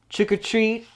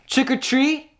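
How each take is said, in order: First: It is said very softly. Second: It is said a little louder.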